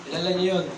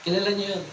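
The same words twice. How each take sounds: The two takes are said the same way.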